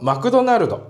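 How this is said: It is said with a Japanese accent. "日本だと"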